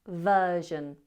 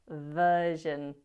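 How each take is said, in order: No difference in how they are said.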